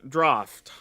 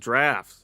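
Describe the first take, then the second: First: The word is said with a European-sounding accent. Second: The word is said with an American accent. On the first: The speaker calls it wrong. "I said it like I'm a European with an accent or something" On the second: The speaker calls it right. "as us Americans say it"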